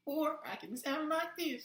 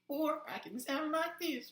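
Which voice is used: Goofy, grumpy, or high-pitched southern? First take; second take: high-pitched southern; high-pitched southern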